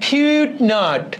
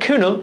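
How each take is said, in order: First: The name is said ending with a t sound. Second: The name is said ending in a vowel sound. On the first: The speaker calls it wrong. "কিউট not কুয়েট নট চুয়েট" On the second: The speaker calls it right. "এটা আসল উচ্চারণটা কিউনো"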